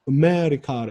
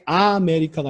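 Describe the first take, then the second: First: The first vowel is a brief passing schwa. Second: The first vowel is a full clear a. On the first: The speaker calls it right. "아를 어, 스쳐 지나가는 발음으로" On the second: The speaker calls it wrong. "정확하게 아메리카가 아니라"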